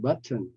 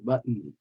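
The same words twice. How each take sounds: First: The middle T is released clearly. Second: The middle T is swallowed with a nasal release. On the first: "instead of button" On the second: "we say button"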